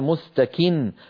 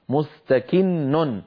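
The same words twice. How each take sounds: First: The final n sound is a single n. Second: The final n sound is doubled. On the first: The reader stops on the word. "لكن عندما نقف عليه نقول مستكن" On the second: The word runs on into what follows. "مع أنها في الوصل نونان"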